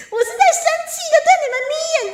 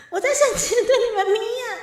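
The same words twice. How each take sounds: First: Much higher, louder, fast whiny yell; mock angry shout. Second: Raised, a touch louder, half-laughing complaint; mock angry. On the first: Streamer insisting to viewers she is angry, hammed-up shouting whine. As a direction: blow up in hammed-up fury at chat. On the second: Streamer telling viewers she is squinting at them angrily, mild mock anger. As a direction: pretend to be cross with chat. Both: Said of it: "我生气了".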